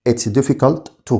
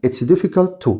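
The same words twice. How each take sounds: First: Said slowly for students to copy; slow model repeat. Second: Said in the usual way. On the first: Shown as a demonstration. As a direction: stretch out "It's difficult to" slowly, word by word. (نطق بطيء وواضح لـ "It's difficult to") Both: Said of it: "نطق مثال".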